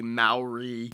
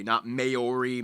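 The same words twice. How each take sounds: First: "Maori" said the proper way, as mah-oh-ree; correct pronunciation. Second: "Maori" said the wrong way, slowly; wrong pronunciation. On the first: Host corrects the viewers' pronunciation of Maori. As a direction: give the right Maori pronunciation. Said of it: "it's pronounced Maori". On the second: Host shows viewers the wrong way to say it. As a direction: demonstrate the mistaken "Maori" before correcting it. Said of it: "it's pronounced Maori, not Maori". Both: Shown as a demonstration.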